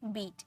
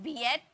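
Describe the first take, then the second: First: The word has one long 'ee' vowel. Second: The word splits into 'ee' then 'e' vowels. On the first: The speaker calls it right. "ई ए को ई में पढ़ते हैं" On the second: The speaker calls it wrong. "ऐसे थोड़ी बोलते हैं बी एट"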